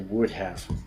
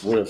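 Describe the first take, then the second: First: 'Would have' is said as two full words. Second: 'Would have' is shortened into one contracted syllable. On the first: The speaker wants extra emphasis. "you want to add emphasis" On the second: The speaker is talking casually. "if you want to shorten the sentence"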